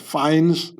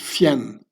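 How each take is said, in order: First: It sounds like the English word fines. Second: It sounds like a French-style name. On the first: The speaker calls it wrong. "they're not fined by the police or fines" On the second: The speaker calls it right. "No, it's Fiennes. It's French nobility"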